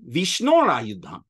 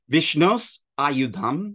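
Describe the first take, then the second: First: The first word ends with an r sound. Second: The first word ends with an s sound. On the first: "When the S sound meets a voiced initial, it becomes Ara" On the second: "Vishnos Ayudham becomes Vishnor Ayudham"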